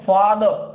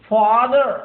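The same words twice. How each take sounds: First: British accent, the R is silent. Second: American accent, the R is pronounced.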